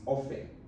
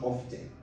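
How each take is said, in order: First: The T sound is silent in the word. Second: The T sound is pronounced in the word. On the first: The speaker calls it right. "The T is silent" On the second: The speaker calls it wrong. "is not often"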